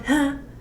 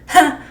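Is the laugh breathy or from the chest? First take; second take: breathy; chest. First: It is a light, breathy laugh. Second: It is a full laugh from the chest.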